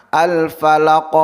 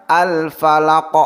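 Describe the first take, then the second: The two takes are said the same way.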